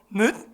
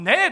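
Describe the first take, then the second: First: It is said with a deep throat sound. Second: It is said plainly, without a throat sound. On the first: The speaker calls it right. "목 속으로 여기를 흔들어야 되는데" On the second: The speaker calls it wrong. "넷 아니고"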